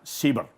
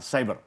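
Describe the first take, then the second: First: The word is pronounced the Indonesian way. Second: The word is pronounced the English way. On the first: This is the adopted Indonesian word. The speaker calls it right. "kita akan menggunakan kosakata Indonesia bahwa inilah cyber" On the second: This is the foreign form of the word. The speaker calls it wrong. "bukan cyber"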